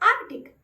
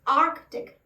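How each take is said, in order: First: No k sound is heard before the t. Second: A k sound is heard before the t. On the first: The speaker calls it wrong. "कई लोग इसका सी letter को silent समझते हैं और इसे pronounce करते हैं आर्टिक" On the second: The speaker calls it right. "यानी आपको क साउंड आना चाहिए"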